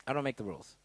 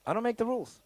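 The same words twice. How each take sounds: First: "don't" leaned on, lower and softer; lower, quieter "don't make the rules"; stress on DON'T. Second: मैं नियम नहीं बनाता में "make" पर ज़ोर; stress on MAKE. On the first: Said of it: "repeated line, lower take". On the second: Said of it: "repeated line, different delivery". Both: Shown as a demonstration.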